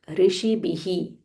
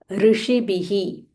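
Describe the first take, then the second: The two takes are said the same way.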